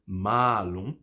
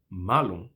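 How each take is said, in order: First: Malum with a long held a; drawn-out maa-lum; long vowel. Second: Malum with a short a; quick malum; short vowel. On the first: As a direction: stretch "ma" in malum. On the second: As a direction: keep "ma" brief in malum. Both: Shown as a demonstration. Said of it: "mexer na duração de uma vogal".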